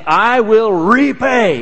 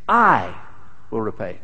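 First: The stress falls on the word repay. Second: The stress falls on the word I. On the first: The focus is on the act of repaying. The speaker calls it wrong. "with the emphasis on the wrong syllable" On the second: The focus is on who repays, not the listener. The speaker calls it right. "It's I will repay, not you"

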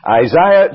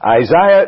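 First: It is said the Northern Irish way. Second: The same.

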